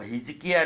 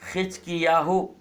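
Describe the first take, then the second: First: It starts with h and ends in 'ya'. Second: It starts with kh and ends in 'yahu'. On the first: The speaker calls it wrong. "हिजकिया नहीं" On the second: The speaker calls it right. "ऐसा उच्चारण करना चाहिए"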